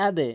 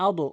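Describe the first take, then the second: First: আদে with d bounced lightly toward e; downward qalqalah. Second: আদো with d released toward a rounded o; mistaken upward bounce. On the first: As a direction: release the end of আদে as a short "de". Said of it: "নিচের দিকে ধাক্কা দিবেন". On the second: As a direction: end আদো on "do", the wrong bounce. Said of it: "উপরের দিকে নয়". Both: Shown as a demonstration.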